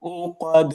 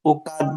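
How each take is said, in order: First: উকাদ with a heavy back qaf; correct qaf. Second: উকাদ with a light front k; উকাদ with kaf instead of qaf; mistaken kaf. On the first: Shown as a demonstration. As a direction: model উকাদ, drawn out and heavy. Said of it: "এখানেও এই যে কফ". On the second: Retold or imitated. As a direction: imitate the wrong উকাদ, thin k. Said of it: "মতো শোনা যাচ্ছিল আর কি".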